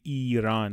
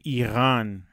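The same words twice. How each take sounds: First: The r is a plain tapped sound. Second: The r is a guttural sound at the back. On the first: The speaker calls it wrong. "نمیگیم ایران" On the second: The speaker calls it right. "یه صدایی بین ق و ر تلفظ میکنیم"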